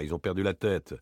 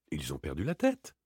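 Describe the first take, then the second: First: "ils ont perdu la tête" as a settled statement, falling at the end; confirming. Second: "Ils ont perdu la tête" as a question, rising on tête. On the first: Answers own question with a statement. (affirmatif, la voix retombe sur « tête ») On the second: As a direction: ask it with a lift on "tête". Repeats the phrase as a question. (interrogatif, la voix monte sur « tête ») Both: Acted.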